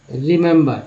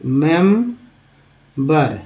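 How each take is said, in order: First: Said in the usual way. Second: remember stretched out very slowly, syllable by syllable; slow syllable demo. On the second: Shown as a demonstration. Teacher breaks the word down for students, very slow. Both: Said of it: "इस तरह से लिखेंगे".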